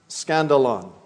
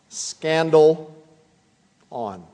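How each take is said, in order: First: It is said at normal speed. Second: It is said slowly, syllable by syllable.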